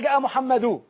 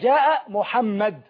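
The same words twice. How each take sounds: First: The name ends with an added -un sound. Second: The name ends on a bare consonant. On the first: The speaker calls it wrong. "ما ينفعش اقول جاء محمد، خطا" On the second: The speaker calls it right. "الوقف بالتسكين، اقول جاء محمد"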